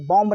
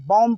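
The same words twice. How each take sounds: First: "बॉम्ब" with a clear B after M; B sounded. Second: "बॉम्ब" ending on M, no B; silent B. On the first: Teacher warns class off this, final B sounded in "बॉम्ब". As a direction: say "बॉम्ब", wrongly voicing the last B. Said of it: "बॉम्ब नहीं बोलेंगे". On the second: Teacher gives the correct reading, last B silent in "बॉम्ब". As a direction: say "बॉम्ब" as "bom". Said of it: "आखिरी वाला बी silent". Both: Shown as a demonstration.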